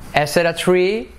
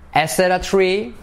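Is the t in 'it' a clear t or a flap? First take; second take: flap; flap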